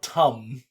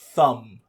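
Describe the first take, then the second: First: The word begins with a plain T sound. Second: The word begins with a TH sound. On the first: The speaker calls it wrong. "not tum" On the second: The speaker calls it right. "It's a hard T H"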